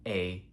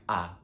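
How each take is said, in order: First: A said "ay", as in English. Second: A said as an open "ah"; Spanish A. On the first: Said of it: "It can only sound like A". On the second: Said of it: "cannot sound like A". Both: Shown as a demonstration.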